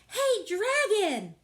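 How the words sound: It is shouted very loudly.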